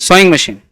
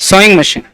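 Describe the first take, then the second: Both takes have the same delivery.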